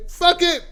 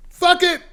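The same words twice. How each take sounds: First: High, loud "Fuck it" with a falling end; shouted quote. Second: High, loud "Fuck it" blurted out; shouted quote. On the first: Streamer repeating what some men say about their weight. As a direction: toss it off with a shout. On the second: Streamer voicing men who stop fighting their weight. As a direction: throw the words away with a shout. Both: Retold or imitated.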